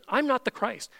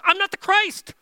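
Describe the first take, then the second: First: Said in the usual way. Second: Much higher and louder, "I'm not the Christ." with full strength; emphatic declaration. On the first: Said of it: "he doesn't say". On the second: Shown as a demonstration. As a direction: proclaim it boldly. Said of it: "Like this".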